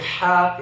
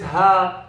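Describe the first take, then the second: First: The h sound is harsh, from the throat. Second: The h sound is light and breathy. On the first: This is the proper recitation pronunciation. The speaker calls it right. "instead of" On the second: This is the ingrained habitual pronunciation. The speaker calls it wrong. "your brain is programmed to pronounce this letter like this"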